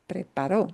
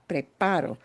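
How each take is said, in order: First: The stress is on the final syllable. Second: The stress is not on the final syllable. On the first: One other person did it in the past. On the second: I am doing it now or habitually.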